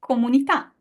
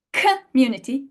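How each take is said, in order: First: Comunità with a dry unaspirated k, open o; Italian k in comunità, no air. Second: Community with an aspirated k and schwa; breathy k in community; English community. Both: Shown as a demonstration. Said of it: "what about community".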